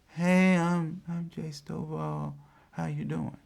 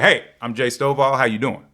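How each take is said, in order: First: It is said quietly and hesitantly. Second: It is said loudly and confidently.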